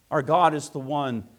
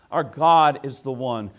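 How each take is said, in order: Both takes have the same delivery.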